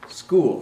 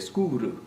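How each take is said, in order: First: It is said with English sounds, one syllable. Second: It is said with Japanese sounds and extra vowels.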